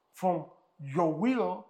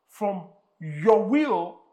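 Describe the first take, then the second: First: Will stressed, gentler repeat; softer echo. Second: Will punched loud and slow; slow, loud stress on will; emphatic. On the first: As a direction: repeat it more quietly. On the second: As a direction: hammer will home. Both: Real, not acted.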